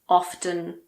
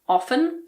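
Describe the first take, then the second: First: The T sound is pronounced. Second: The T sound is silent. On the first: "but you can say often if you want" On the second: "so I don't pronounce it"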